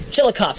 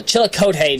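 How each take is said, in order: First: Chillicothe said chill-uh-KOFF; ending as koff. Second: Chillicothe said chill-uh-KOH-tay; ending as koh-tay. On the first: Host preferring this reading, Chillicothe as chill-uh-koff. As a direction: end Chillicothe in koff, three syllables. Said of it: "sounds more accurate to me". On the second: Host rejecting one reading, Chillicothe as chill-uh-koh-tay. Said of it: "just doesn't sound exa". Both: Shown as a demonstration.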